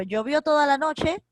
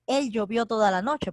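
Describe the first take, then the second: First: Said in the usual way. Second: "Él" given the weight as the wrong addition; wrong version with él. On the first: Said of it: "Por ejemplo". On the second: Shown as a demonstration. Teacher to student, showing the ungrammatical version, "Él" stressed. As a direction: lean on "Él" to show it does not fit. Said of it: "tú no puedes decir".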